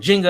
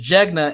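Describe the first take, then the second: First: The name sounds like the board game Jenga. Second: The name has a hard g before the n. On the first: The speaker calls it wrong. "People call it Jenga after the board game" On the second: The speaker calls it right. "But it's Jegna"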